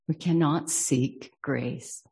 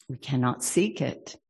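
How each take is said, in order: First: Cannot pressed, slower line; slow down and lean on cannot; We CANNOT seek grace, stretched and firm; stress on cannot. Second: Seek leaned on, rest even; We cannot SEEK it, weight on seek; stress on seek. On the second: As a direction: land on the word seek. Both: Shown as a demonstration.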